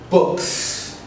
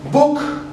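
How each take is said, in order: First: "books" ending in a hissed s; plural s sound. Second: "Book" with a clean final k; "Book", short and clear; singular model. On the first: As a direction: add a crisp s to "books". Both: Shown as a demonstration. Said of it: "Repeat with me one time".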